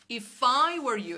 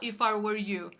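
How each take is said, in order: First: The word I carries the stress. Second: The word I carries no stress. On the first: The speaker calls it right. "a gente tem que fazer o stress no I" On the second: The speaker calls it wrong. "A gente não fala"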